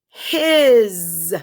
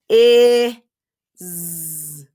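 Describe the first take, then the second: First: The word is said at normal speed. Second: The word is slowly drawn out.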